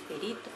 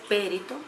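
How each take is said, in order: First: The stress is on the second syllable. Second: The stress is on the first syllable. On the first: The speaker calls it right. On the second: The speaker calls it wrong.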